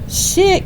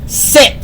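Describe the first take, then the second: First: It is said in a pleading, begging tone. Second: It is said in a firm, commanding tone. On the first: The owner is asking, not commanding. The speaker calls it wrong. "try to beg your dog to do something" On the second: The owner is giving a command. The speaker calls it right. "you got to be firm. You got to have that tone"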